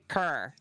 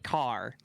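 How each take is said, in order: First: It is said with an East Coast Canadian accent. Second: It is said in a plain, general accent.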